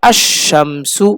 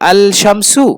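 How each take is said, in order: First: The 'l' merges into a doubled 'sh'. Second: The 'l' of 'al' is clearly pronounced. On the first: The speaker calls it right. "পড়া হবে আশ শামসু" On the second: The speaker calls it wrong. "আল হবে না"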